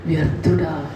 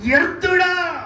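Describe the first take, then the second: First: Gentle, sugary "వ్యర్థుడా" read slowly like the sister does; mock sweet reading. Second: "వ్యర్థుడా" shouted much higher and louder, falling hard at the end; stern loud rebuke. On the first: Preacher mimics a sister reading the verse, mock sweet. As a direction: soften "వ్యర్థుడా" into a sweet, polite call. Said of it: "ఎంత స్వీట్గా". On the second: Shown as a demonstration. Preacher shows the congregation how the verse should sound, loud rebuke. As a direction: bark "వ్యర్థుడా" as a scolding call. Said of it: "ఎలా చదవాలి తెలుసా".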